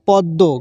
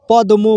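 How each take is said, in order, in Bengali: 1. 'd' দ্বিত্ব হয় এবং কোনো 'm' শোনা যায় না। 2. 'd'-এর পরে 'm' ধ্বনি স্পষ্টভাবে উচ্চারিত হয়। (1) "উচ্চারণ হবে পদ্ম" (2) "পদ্ম বলা যাবে না"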